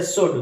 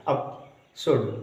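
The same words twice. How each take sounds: First: Said in the usual way. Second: शुड said very slowly, the ऊ between स and ड drawn out; slowed vowel demo. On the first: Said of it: "इनमें कम समय लगेगा बोलने में". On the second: Shown as a demonstration. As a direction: stretch शुड slowly to show its ऊ. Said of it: "स और ड के बीच में ऊ". (शुड को बहुत धीरे बोलें, ऊ साफ़ सुनाएँ)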